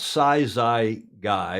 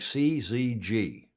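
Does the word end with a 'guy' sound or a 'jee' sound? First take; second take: guy; jee. First: The word ends with a 'guy' sound. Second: The word ends with a 'jee' sound. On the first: The speaker calls it wrong. "It's not" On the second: The speaker calls it right. "It's the Greek pronounce"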